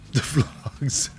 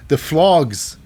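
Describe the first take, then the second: First: Words dissolving into a laugh; real laughing. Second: Said in the usual way. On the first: Real, not acted. Host amused by Duke Hudson's nickname, laughing. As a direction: repeat it through helpless laughter.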